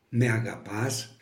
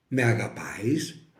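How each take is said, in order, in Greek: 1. Τυπικός τύπος, με τη συνηρημένη κατάληξη as. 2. Τύπος της διαλέκτου, με τη μη συνηρημένη κατάληξη a-eis.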